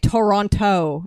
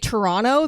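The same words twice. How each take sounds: First: The second T is clearly pronounced. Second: The second T is dropped. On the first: This is how people from elsewhere say it. "they don't say Toronto and pronounce the last T" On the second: This is how people from the city say it. "they say Toronto"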